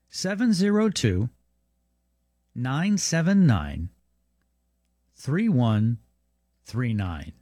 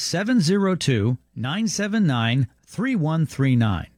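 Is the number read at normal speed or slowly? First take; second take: slowly; normal. First: The number is read more slowly. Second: The number is read at normal speed.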